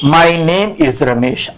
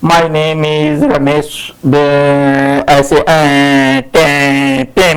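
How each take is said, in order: First: Slow, relaxed, unhurried; calm and easy. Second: Low, slow, hesitant stammer; nervous fumbling intro. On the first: Teacher shows students the calm way to introduce themselves, slow. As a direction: say it at ease, without fear. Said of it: "say it like this". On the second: Teacher demos a nervous student's fumbling intro, low and halting. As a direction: mumble it like a scared beginner. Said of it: "don't say introduction like this". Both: Shown as a demonstration.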